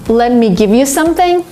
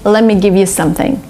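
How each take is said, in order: First: Every sound is said carefully and fully. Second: It is said in relaxed American style.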